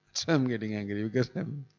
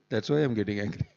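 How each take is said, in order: First: Laughing. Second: Said in the usual way. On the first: Real, not acted.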